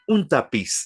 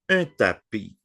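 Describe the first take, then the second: First: The word ends with an audible s sound. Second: The word ends without any s sound. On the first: The speaker calls it wrong. "Aquí no podemos decir en français un tapiz" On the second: The speaker calls it right. "La S finale no se pronuncia"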